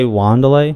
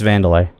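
First: The name begins with a W sound. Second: The name begins with a V sound. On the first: The speaker calls it wrong. "did you say Wanderlei?" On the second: The speaker calls it right. "it's Vandalay. ... their W's sound like V's"

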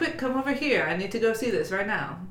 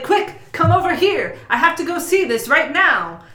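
First: It is said in a flat voice. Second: It is said in a lively voice.

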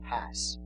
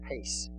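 First: The vowel sounds like the one in 'has'. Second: The vowel sounds like the one in 'ice'. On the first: The speaker calls it wrong. "sometimes it looks like has" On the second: The speaker calls it right. "it's pronounced hais"

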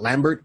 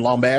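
First: The name is said with an American pronunciation. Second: The name is said with a French pronunciation. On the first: This is the expected local way of saying it. The speaker calls it wrong. "and not Lambert" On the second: This is how the person says his own name. The speaker calls it right. "why am I saying his name Lambert ... he was raised over in France"

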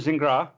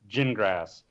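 First: The name is said the Canadian, French way. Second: The name is said the general American way.

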